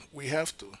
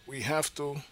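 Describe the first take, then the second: No difference in how they are said.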